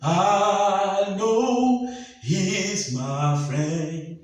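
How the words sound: It is said with a rush of air.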